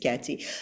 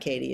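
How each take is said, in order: First: The middle consonant is a ts sound. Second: The middle consonant is a plain t sound. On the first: The speaker calls it right. "please say it correctly" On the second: The speaker calls it wrong. "It's not Katie"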